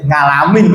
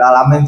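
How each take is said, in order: First: The word begins with an ng sound. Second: The word begins with a plain vowel sound.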